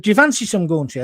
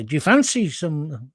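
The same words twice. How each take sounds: First: Said in the usual way. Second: Accidental Scottish lilt; Scottish accent. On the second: Retold or imitated. Host quoting his actor friend, accidentally Scottish. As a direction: slip into a slow Scottish accent. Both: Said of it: "when did he become Scottish".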